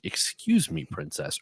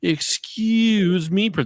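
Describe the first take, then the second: First: It is said in a subdued, serious way. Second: It is said in an exaggerated, campy way.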